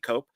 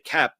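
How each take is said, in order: First: The name is said with a long 'o' vowel. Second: The name is said with a short 'e' vowel. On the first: The speaker thinks it may be correct this way. "it might be Cope" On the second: The speaker used to say it this way. "I used to say Kep"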